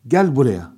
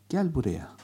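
First: Loud, harsh Gel buraya; angry command. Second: Tender call. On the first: Teacher demonstrating an angry call to come here. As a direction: bark it like a scolding. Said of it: "Bu bir kızma ifadesidir". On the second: Teacher demonstrating an affectionate call to come here. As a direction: coax kindly. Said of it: "Bu bir şefkat ifadesidir". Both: Shown as a demonstration.

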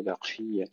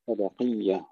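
First: ق of بقية let out with a hissy breath; wrong whispered qaaf. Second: وبقية with a firm ق, no breath after it; clean qaaf. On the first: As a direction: say بقية faultily and softly, like "baq-shiyya". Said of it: "ولا نهمسها، لا نقول بقية". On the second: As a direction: recite وبقية correctly, ق heavy and free of hiss. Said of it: "ولا نهمسها". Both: Shown as a demonstration.

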